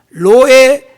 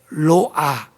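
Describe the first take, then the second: First: The word ends with an 'eh' vowel. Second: The word ends with an 'ah' vowel. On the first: "히브리어로는 로에라고 말합니다" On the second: "로아라고 발음해도 돼요"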